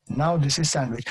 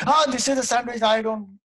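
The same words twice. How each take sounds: First: Said in the usual way. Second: High-pitched startled outcry; mock panic. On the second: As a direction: act terrified at the sight of it. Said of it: "He's got so psyched".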